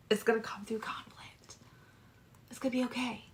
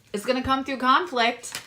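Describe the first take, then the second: First: Breathy whisper, voice dropped right out. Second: Said in the usual way. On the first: Shown as a demonstration. Tarot reader whispering a warning to Sagittarius. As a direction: let it slip out as a secret whisper.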